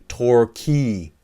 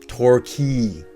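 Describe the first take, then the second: The two takes are said the same way.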